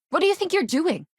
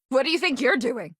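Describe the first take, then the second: First: Much higher, indignant cry; outraged challenge. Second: Higher-pitched, affronted demand; indignant challenge. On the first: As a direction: confront someone caught in the act. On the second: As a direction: call someone out for misbehaving. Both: Acted. Challenging someone caught misbehaving.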